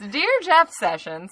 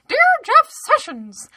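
First: It is said in a Southern accent. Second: It is said in a squeaky Mickey Mouse voice.

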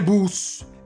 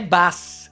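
First: The vowel sounds like a rounded Italian u. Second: The vowel sounds like an open Italian a. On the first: "né bus" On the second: "Non è né bus"

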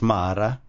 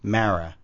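First: The name is pronounced the Italian way. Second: The name is pronounced the American way. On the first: This is the name's original Italian form. "technically, if you're Italian, it's Mara" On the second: This is the form used while growing up in New York. "But growing up in New York, it was Mara"

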